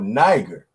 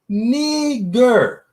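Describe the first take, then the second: First: The word is not pronounced as 'nee-ger'. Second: The word is pronounced as 'nee-ger'. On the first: This is how other people taught the name. The speaker calls it wrong. "people were telling me this word was called Niger" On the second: This is the pronunciation given by the reference source. The speaker calls it right. "N E E G E R. So the pronunciation of it is Niger"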